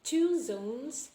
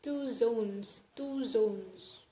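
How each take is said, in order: First: "two zones" with an aspirated t; standard pronunciation. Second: "two zones" with an unaspirated t; Philippine interviewer's pronunciation. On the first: Lecturer showing the actual phrase, standard pronunciation. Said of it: "it is actually pronounced as". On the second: Lecturer quoting the Philippine interviewer, imitated pronunciation. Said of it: "pronounced it as". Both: Shown as a demonstration.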